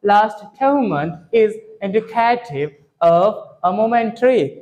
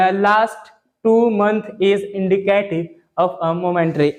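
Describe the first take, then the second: First: Last two month read very slowly, English-style, in a changed voice; foreign-style reading. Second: लास्ट टू मंथ read slowly and syllable by syllable, Hindi-style; Indian reading style. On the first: Teacher revises the newspaper line in foreign style. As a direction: model the sentence slowly like a foreign speaker. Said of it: "revision करते हैं". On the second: Teacher imitates how students usually read the newspaper line. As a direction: read the sentence like a typical Hindi-medium student. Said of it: "कैसे पढ़ते हो?". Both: Shown as a demonstration.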